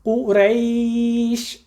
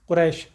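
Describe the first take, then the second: First: The second vowel is a clear ai diphthong. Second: The second vowel is a flat plain e. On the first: The speaker calls it right. "बहुत एहतियात के साथ हमने उसे करना है, हमारे होठ पीछे जाएंगे" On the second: The speaker calls it wrong. "अवाम उन्नास कुरैश, पढ़ना हमारा गलत है"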